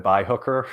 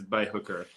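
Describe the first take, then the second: First: A lightly mocked sneering sign-off, with a questioning rise on "hooker"; mocking quote, rising. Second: A low, softer, deadpan "Bye, hooker" with a falling end; flat dismissive quote. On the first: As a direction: tease him with a questioning "Bye, hooker". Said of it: "Is this when he said". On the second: Retold or imitated. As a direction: drop the voice and let "hooker" fall flat. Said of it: "he says".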